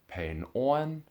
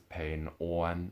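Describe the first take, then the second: First: The word 'on' carries the Cantonese-style tone. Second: The word 'on' carries the Hoisanese tone. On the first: It means short. The speaker calls it wrong. "not pain on" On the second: It means peaceful. The speaker calls it right. "that's why we read it as pain on"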